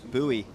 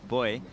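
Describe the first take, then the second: First: The word is said the Californian way. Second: The word is said the Australian way. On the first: "I'll say it for Californians listening" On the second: "in Australia we pronounce it buoy"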